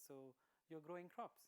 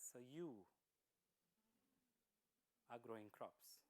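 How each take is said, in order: First: Rising tune ending on crops; "crops" lifted into an asking rise; questioning Buddha. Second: Lower, with the weight falling on "are"; "are" pressed down with a falling tune; probing Buddha. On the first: Lord Buddha asking the farmer back, rising on crops. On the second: Lord Buddha pressing the farmer, lower, stress on are. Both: Acted.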